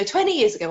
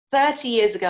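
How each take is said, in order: First: Twenty hit louder as a correction; stress on twenty. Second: Thirty hit louder as the final correction; stress on thirty. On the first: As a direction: correct yourself, punching twenty. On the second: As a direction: settle it, punching thirty. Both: Real, not acted. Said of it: "what am I talking about?".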